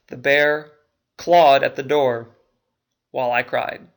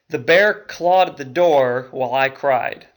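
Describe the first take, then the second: First: It is said with a pause before while. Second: It is said without a pause before while.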